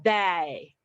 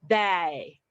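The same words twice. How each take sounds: First: The vowel is said too open and wide. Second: The vowel is said too open and wide.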